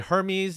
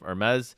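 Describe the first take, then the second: First: It is pronounced the way the Greek god's name is. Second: It is pronounced the way the fashion brand is. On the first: It refers to the mythological figure. "you could say Hermes if you're from like the Greek god perspective" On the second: It refers to the luxury fashion house. "there's the fashion pronunciation of Hermes"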